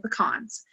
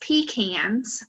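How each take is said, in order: First: It is said the Southern US way. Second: It is said the Northern US way.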